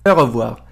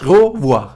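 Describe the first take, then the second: First: "au revoir" with the "au" not closed, an open vowel in place of the rounded o; variant pronunciation. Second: "Au revoir" with the "au" as a closed rounded o and a throaty French r; French pronunciation demo. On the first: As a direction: show the alternative "au revoir" with a more open, less rounded "au". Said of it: "یعنی پشت بسته نشه". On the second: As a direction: model "Au revoir" with the lips rounded tight on "au". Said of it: "او، رو". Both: Shown as a demonstration.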